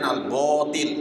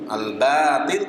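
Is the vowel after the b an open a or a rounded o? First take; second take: rounded o; open a. First: The vowel after b is a heavy rounded o. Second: The vowel after b is a light open a. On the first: The speaker calls it wrong. "Jangan bo" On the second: The speaker calls it right. "Al-batil bukan al-botil"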